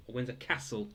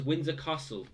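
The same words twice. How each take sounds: First: "Castle" with a flat short A, KASS-el; northern "Windsor Castle", short A. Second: Said in the usual way. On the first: Shown as a demonstration. Quiz host jokingly gives his own "Castle", short A. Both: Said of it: "as I like to say sometimes".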